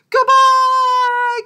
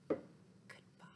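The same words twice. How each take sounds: First: It is said very loudly. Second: It is said very quietly.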